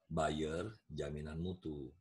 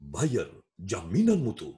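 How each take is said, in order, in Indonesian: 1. Suaranya datar dan biasa saja. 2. Suaranya penuh, kuat, dan bertenaga. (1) "Ada yang beli?" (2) "Tapi harus pakai vokal prima"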